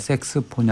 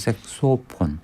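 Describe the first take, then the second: First: The middle syllable is pronounced 'seu'. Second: The middle syllable is pronounced 'so'. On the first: The speaker calls it wrong. "색스폰이 아니고" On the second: The speaker calls it right. "아니고 색소폰"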